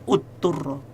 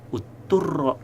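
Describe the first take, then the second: Both takes have the same delivery.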